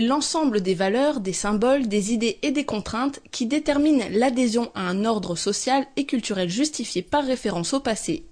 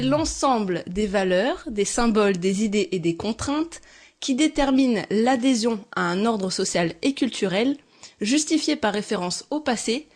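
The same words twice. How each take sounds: First: It is said at a normal speed. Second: It is said slowly.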